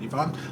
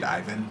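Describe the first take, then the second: First: The name sounds like Yvonne. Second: The name sounds like Ivan. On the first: This is how other people read the name. "some people read it Yvonne" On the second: This is how the speaker reads the name. "when I'm reading it, I read Ivan"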